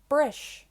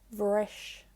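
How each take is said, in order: First: The word begins with a B sound. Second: The word begins with a V sound. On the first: "brish, the verb for break" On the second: "it's pronounced like a V"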